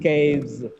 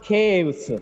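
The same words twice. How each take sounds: First: The word ends with a z sound. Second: The word ends with an s sound. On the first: The speaker calls it right. "it gets z sound at the end" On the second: The speaker calls it wrong. "It is not caves"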